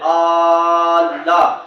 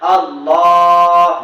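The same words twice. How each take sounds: First: The opening vowel is stretched out long. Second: The middle syllable is stretched out long. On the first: The speaker calls it wrong. "আলিফ খাড়া যাবার বলেন আল্লাহ" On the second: The speaker calls it right. "লাম খাড়া যাবে, আপনাকে টানতে হবে"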